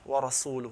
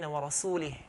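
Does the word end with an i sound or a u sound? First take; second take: u; i. First: The word ends with an u vowel. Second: The word ends with an i vowel. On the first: The messenger also disowns the polytheists. The speaker calls it right. "with the Dhamma" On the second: God disowns both the polytheists and the messenger. The speaker calls it wrong. "he said with the Kasra"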